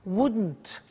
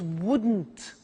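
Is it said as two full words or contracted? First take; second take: contracted; contracted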